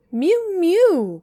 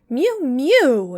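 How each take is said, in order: First: Very high, loud mewing cry; a cat crying at the door. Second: High, loud mewing cat; a cat interrupting with a loud mew; cat's mew. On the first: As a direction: wail it like a shut-out cat. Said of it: "cried Simpkin". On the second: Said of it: "interrupted Simpkin". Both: A narrator's reading.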